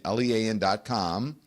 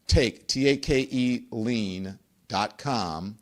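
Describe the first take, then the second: First: Said in the usual way. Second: Slow spelled-out web address. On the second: Shown as a demonstration. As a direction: spell it out very slowly, letter by letter.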